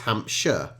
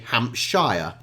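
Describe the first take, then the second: First: The last syllable is a weak, reduced 'sher'. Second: The last syllable is a full 'shire'. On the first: "But when it's put together, it's Hampshire" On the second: "the Americans would say Hampshire because Shire, it makes sense"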